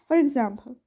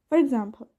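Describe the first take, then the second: Both takes have the same delivery.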